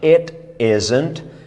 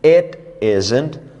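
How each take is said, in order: First: Said slowly, the t is a clear t. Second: Said slowly, the t is a clear t.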